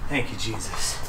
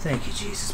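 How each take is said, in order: First: Low, soft murmured thanks; quiet prayer. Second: Breathless whispered thanks, no voice; whispered prayer. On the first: Vlogger prays before opening the chest, soft low thanks. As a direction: thank God quietly under your breath. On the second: Vlogger prays before opening the chest, whispered thanks. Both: Real, not acted. Praying over the locked chest.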